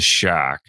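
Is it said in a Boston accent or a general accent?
Boston. It is said with a Boston accent, r dropped.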